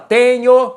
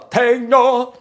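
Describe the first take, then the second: First: It is said in a plain Brazilian Portuguese accent. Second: It is said in an exaggerated Latin-style accent. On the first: This is not how the singer says it. "Ele não fala tenho" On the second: This is how the singer says it. "ele fala tenho"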